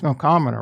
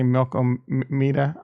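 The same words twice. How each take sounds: First: The word rhymes with Andromeda. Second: The word does not rhyme with Andromeda. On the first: The speaker calls it right. "It's it's Milkomeda, right? Andromeda, Milkomeda" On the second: The speaker calls it wrong. "So many people pronounce that wrong. They say"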